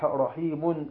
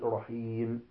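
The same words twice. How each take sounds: First: The word ends with an added n sound. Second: The word ends on a still, unvoweled m. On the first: The speaker calls it wrong. "فلا نقول رحيم" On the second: The speaker calls it right. "بل نقول رحيم حميد بالتسكين"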